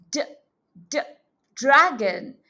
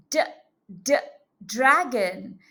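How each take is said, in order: Both takes have the same delivery.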